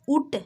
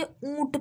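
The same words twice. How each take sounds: First: ऊट with a plain oral ऊ; no nasal sound. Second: ऊंट with the ऊ through the nose; nasalised vowel. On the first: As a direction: say ऊट purely through the mouth. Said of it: "लेकिन हम लोग ऊट नहीं पढ़ते". (ऊट, बिना नाक की आवाज़ के) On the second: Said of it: "नाक से आप पढ़िएगा". (ऊंट का ऊ नाक से) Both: Shown as a demonstration.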